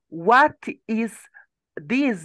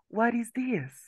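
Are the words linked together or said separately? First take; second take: separately; linked. First: The words are said separately, each one distinct. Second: The words are linked together into one run of sound. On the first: "instead of saying" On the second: "They say, ... They put the sound together"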